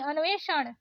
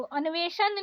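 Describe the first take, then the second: First: अन्वेषण ending in curled-tongue ण; correct retroflex ण. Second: अन्वेषण ending in plain न; wrong dental N. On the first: Teacher correcting learners, retroflex अन्वेषण. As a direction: curl back on the last sound of अन्वेषण. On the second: Teacher showing learners the mistake, dental-N अन्वेषण. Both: Shown as a demonstration. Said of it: "नहीं".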